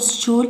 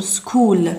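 First: "stool" said as "s-chool", with CH; wrong pronunciation. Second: "school" with a hard K sound; correct pronunciation. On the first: Teacher shows what we don't say, mispronounced with CH. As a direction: put a CH sound after the S in "stool". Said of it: "لا نقول". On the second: Teacher shows pupils what we say, pronounced with K. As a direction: say "school" as "skool". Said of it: "نقول school". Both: Shown as a demonstration.

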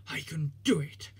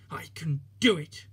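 First: Breathless whispered puff; panted whisper. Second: Pushed out loud with effort; panting, louder. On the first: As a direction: whisper it as if straining uphill. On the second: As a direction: puff it hard as the climb peaks. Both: Acted. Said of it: "he panted".

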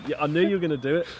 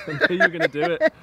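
First: Said in the usual way. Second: High, fast, laughing through words. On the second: Real, not acted. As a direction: crack up mid-sentence.

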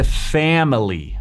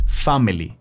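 First: Family with a wide "æ", as "FAM-lee"; American A in family. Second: Family with an open Spanish "ah", as "FAH-mee-lee". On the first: Coach teaches native sound, "family" with wide æ. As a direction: stretch the open front A in "family". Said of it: "se dice family". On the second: Coach shows the mistake, "family" with Spanish ah. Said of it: "no se dice family". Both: Shown as a demonstration.

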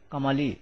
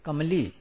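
First: "Kamali" in three syllables, "Ka-ma-li"; every vowel voiced in "Kamali"; middle vowel sounded. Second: "Kamali" said as "Kam-li"; two syllables, "kamlee" for "Kamali"; middle vowel dropped. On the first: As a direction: keep an a between m and l in "Kamali". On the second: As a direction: run the m straight into the l in "Kamali". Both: Shown as a demonstration. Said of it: "and not".

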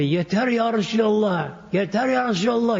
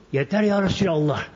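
First: Calling out his plea in the dream, high; mock outcry of a desperate believer; retold cry out. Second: Said in the usual way. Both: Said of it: "bu sebebi bağırıyor".

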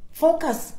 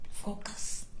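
First: Said in the usual way. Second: Breathy whisper, almost no voice; whispered focus. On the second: Real, not acted. Whispering focus to her confused viewers. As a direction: whisper it like a secret reminder.

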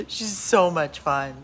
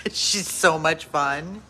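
No difference in how they are said.

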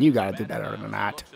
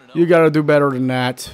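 First: Softer, low grumble at the pitcher; quiet disappointed grumble; muttered scolding. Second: Said in the usual way. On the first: Real, not acted. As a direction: mutter it under your breath. Scolding his own pitcher.

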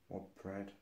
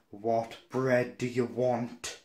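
First: Low, very soft mumble; imitated rude grunt. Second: "What bread do you want" slow and heavily spelled out; exasperated repeat. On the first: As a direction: mimic a server who barely bothers to speak. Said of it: "she was, like, grunting at me". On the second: Retold or imitated. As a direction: mimic an irritated server stretching "What bread do you want". Server repeats it in irritation.

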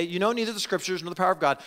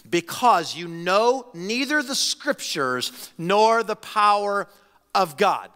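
First: Fast, light re-reading of the verse; fast casual quote; quick run-through. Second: Slow, weighty reading with NEITHER leaned on; slow solemn scripture reading; slow emphatic reading. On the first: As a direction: rattle it off quickly. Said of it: "to show them". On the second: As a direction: lay each word down slowly, like a verdict. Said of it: "You don't know". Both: Shown as a demonstration.

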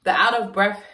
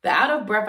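First: Breathless; short of breath. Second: Breathless restart; short of breath. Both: Real, not acted. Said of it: "sorry, y'all".

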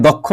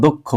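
First: First দক্ষ with an open অ vowel; wrong pronunciation. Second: দক্ষ with closed o, as দোক্খো; correct pronunciation. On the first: Teacher showing what to avoid, দক্ষ with open vowel. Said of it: "দক্ষ না বলে বলতে হবে দক্ষ". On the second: Teacher giving correct form, দক্ষ with closed o. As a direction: round the vowel of দক্ষ to a closed ও. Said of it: "বলতে হবে দক্ষ". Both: Shown as a demonstration.

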